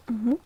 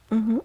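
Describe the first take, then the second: No difference in how they are said.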